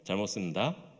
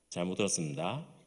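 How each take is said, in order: First: Whole syllables are dropped from the middle. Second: Some sounds begin to drop out of the phrase. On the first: A mid-ranked soldier says it. "상병이 되면은" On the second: A soldier one rank higher says it. "일병쯤 되면은 뭔가가 사라지기 시작합니다"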